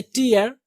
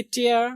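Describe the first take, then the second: First: "टीयर" with an 'ee' vowel; आम गलत उच्चारण. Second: "टेयर" rhyming with air; सही उच्चारण. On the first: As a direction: say "टीयर" as TEE-ar. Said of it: "हम लोग पढ़ते हैं टीयर". ("टीयर" का गलत उच्चारण, 'ई' के साथ) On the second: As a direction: say "टेयर" as TAIR, not TEER. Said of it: "ये टीयर नहीं". ("टेयर" का सही उच्चारण, 'ए' के साथ) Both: Shown as a demonstration.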